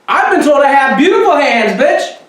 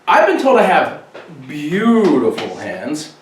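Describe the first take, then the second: First: It is said with exaggerated, over-the-top excitement. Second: It is said with little energy or excitement.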